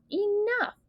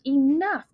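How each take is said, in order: First: Jumps much higher, almost a shriek; high yell. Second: Firm narrated yell, a bit louder. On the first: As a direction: throw it up high to break them apart. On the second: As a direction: call it out to stop the fight. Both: A narrator's reading. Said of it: "a voice yells".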